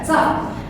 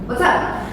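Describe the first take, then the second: First: It is clipped to a single syllable. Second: Both words are said in full. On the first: "bikinnya sup aja gitu ya" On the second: "itu sering ngomong what's up"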